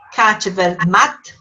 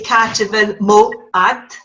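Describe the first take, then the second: First: The last words are run together into one. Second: The last words are said separately and fully. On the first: "the way we tend to flow the language" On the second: "You can also say"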